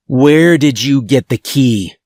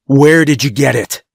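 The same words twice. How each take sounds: First: Said in the usual way. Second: A bit louder, pressing harder. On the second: A narrator's reading. Guard repeating his question to the kids, a bit louder. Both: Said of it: "Then louder".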